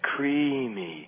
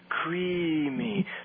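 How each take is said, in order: First: The word is said in a hard, pushing way. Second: The word is said in a smooth, soft way. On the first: "I'm going to exaggerate a little bit" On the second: "That's a smoothing, softening aspect of things"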